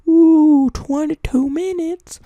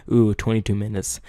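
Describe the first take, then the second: First: Very high, drawn-out squeaky voice; silly falsetto echo; mock squeal. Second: Said in the usual way. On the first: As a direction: squeal it slowly in mock amazement. Mock squeaky repeat of himself.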